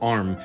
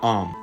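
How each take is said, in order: First: The R after the vowel is clearly pronounced. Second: The R after the vowel is dropped. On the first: This is how everyone spoke before American independence. "basically everybody in Britain and in America would pronounce that word arm" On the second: This later became popular in British cities. "and not om"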